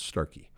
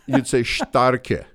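First: The name is pronounced the anglicized way. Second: The name is pronounced the German way. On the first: "We have anglicized it, but it's Starkey" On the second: "If you were saying it the German way"

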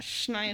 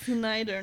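First: The name begins with an sh sound. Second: The name begins with a plain s sound. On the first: The speaker calls it wrong. "not Schneider" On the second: The speaker calls it right. "It's Snyder"

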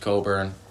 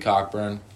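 First: The name has no k sound, like Co-burn. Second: The name has a k sound, like Cock-burn. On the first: This is the name's real pronunciation. The speaker calls it right. "His real name's Coburn" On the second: The name is bent for a joke. The speaker calls it wrong. "I'm calling him Cockburn for comedic effect"

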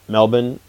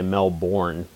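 First: Local Australian style, with a shortened final syllable. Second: Northwestern American, with a full final syllable.

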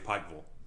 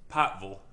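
First: It is said in a standard American accent. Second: It is said in an Eastern Kentucky accent. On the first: "it's like when I say Pikeville" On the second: "Pikeville is a more appropriate pronunciation. P-I-G-H-T-V-U-L"

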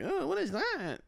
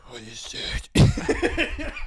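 First: It is said in a plain voice. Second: It is said breathing super heavily.

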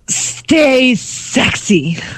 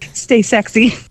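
First: It is said in a sexy, overdramatic way. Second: It is said plainly, without drama.

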